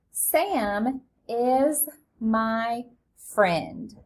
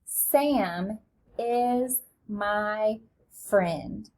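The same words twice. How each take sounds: First: Very slow, each word drawn out; teacher reading the sentence slowly aloud; slow model reading. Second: Even slower, each word stretched; very slow read-along. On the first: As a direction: read it out slowly for beginners. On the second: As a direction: read along at a crawl with the class. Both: Shown as a demonstration. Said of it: "Read it with me".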